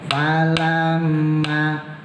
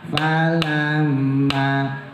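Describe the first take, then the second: No difference in how they are said.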